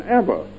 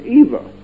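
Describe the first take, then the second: First: "Eva" as EV-a, like Emma; Eva with short E. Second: "Eva" as EE-va, long ee first. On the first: Preacher saying his mother's name, "Eva" as EV-a. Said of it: "My mother called her name Eva". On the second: Preacher on how most people say it, "Eva" as EE-va. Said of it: "pronounce their name Eva". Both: Shown as a demonstration.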